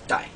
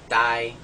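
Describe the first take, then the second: First: The tone falls from low pitch. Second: The tone is level at mid pitch. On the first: "a very low falling tone" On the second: "one is a flat mid-tone"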